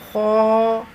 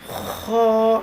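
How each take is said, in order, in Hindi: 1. इसे भरपूर और गहरी आवाज़ में, बिना खरखराहट के बोला जाता है। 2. इसे कठोर, खुरचने जैसी खरखराहट के साथ बोला जाता है। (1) "पुर आवाज़ में अदा होगा, ये मोटी आवाज़ में" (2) "गला जैसे रगड़ और खरखराहट पैदा हो जाती है"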